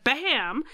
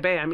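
First: The word is said loudly with emphatic energy. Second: The word is said flatly, without extra energy. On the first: The speaker calls it right. "You gotta say BAAM" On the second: The speaker calls it wrong. "You can't just say BAAM"

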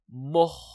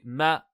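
First: The syllable is pronounced heavy, with emphatic coloring. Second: The syllable is pronounced thin, without emphatic coloring. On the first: The speaker calls it wrong. "Et pas moh" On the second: The speaker calls it right. "on laisse bien le mime aminci"

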